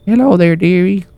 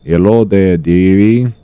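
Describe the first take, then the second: First: It is said in an old lady voice. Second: It is said in a Russian lady accent.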